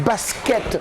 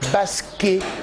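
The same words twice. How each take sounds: First: The final T sound is pronounced. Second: The final T sound is left silent. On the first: The speaker calls it wrong. "il y en a qui disent basket" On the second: The speaker calls it right. "on doit dire normalement basket le T ne se prononce pas"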